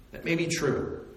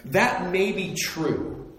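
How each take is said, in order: First: Softer echo, stress on may; quieter repeat. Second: Slow, weighty, stress on That; slow concession. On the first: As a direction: drop the volume and let "may" carry it. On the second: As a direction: draw out "That may be true" slowly, leaning on That. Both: Shown as a demonstration.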